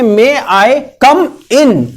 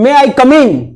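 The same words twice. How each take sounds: First: 'Come' and 'in' are said as separate words. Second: 'Come in' runs together into one word. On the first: It asks permission to enter. The speaker calls it right. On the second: It sounds like an insult. The speaker calls it wrong.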